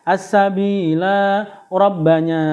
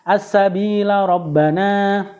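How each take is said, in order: First: The vowel after the l is held long. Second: The vowel after the l is kept short. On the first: The reader stops at the end of the verse. "dibaca waqaf lamnya dibaca panjang" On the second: The reader joins it to the next verse. "jika dibaca wasal lamnya dibaca pendek"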